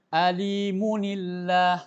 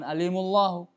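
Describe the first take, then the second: First: An n with an i vowel links to llah. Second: The n is dropped, joining m directly to llah. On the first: The speaker calls it right. "huruf nun sukunnya itu diberi harakat kasrah" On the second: The speaker calls it wrong. "Enggak boleh antum baca"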